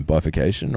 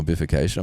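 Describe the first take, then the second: First: Bifurcation said one of two possible ways; first pronunciation attempt. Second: Bifurcation said the other possible way; alternative pronunciation. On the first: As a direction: try Bifurcation with a long "bye" opening. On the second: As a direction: try Bifurcation with a short "biff" opening. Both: Shown as a demonstration. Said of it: "not quite sure how to pronounce it".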